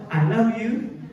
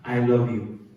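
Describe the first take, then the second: First: It is said emotionally with higher pitch. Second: It is said plainly without raised pitch.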